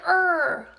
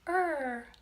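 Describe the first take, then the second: First: It is said in an annoyed, harsh tone. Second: It is said in a warm, kind tone. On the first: The child is being scolded for a mistake. The speaker calls it wrong. "you don't say, no, I said er" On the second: The child is being gently encouraged. The speaker calls it right. "you be kind and say er"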